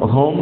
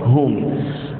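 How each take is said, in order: First: The final m is not clearly pronounced. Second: The final m is pronounced clearly. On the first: The speaker calls it wrong. "Jangan sebut hum" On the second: The speaker calls it right. "Jelaskan mim"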